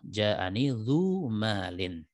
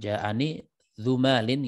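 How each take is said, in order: First: The vowel in dzu is long. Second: The vowel in dzu is short. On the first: The speaker calls it right. "yang betul apa?" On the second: The speaker calls it wrong. "dzunya pendek ya"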